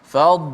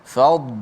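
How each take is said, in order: No difference in how they are said.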